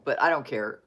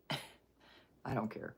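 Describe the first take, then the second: First: Said in the usual way. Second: Slow whisper through a laugh. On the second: Real, not acted. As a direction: giggle it out, barely voiced.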